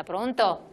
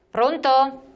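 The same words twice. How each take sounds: First: Said in the usual way. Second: Louder, higher hello down the line; calling out loud. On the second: Real, not acted. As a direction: call out to reach the caller. Caller not heard, calls again. (chiamando ad alta voce)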